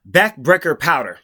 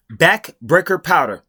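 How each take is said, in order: First: Said in the usual way. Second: Slow mocking repeat. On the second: Shown as a demonstration. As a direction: spell out Backbreaker powder slowly, each part drawn out. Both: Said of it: "This is how smart Brandon Sanderson is".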